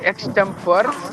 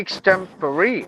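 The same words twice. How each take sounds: First: The final E is silent. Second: The final E is pronounced. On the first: The speaker calls it wrong. "We usually say extempore" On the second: The speaker calls it right. "but it should be extempore"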